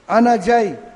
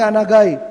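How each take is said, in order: First: The second word starts with a 'j' sound. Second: The second word starts with a 'g' sound. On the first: "انا جائی میں آ رہا ہوں" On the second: "تو آپ کہیں گے انا گائی"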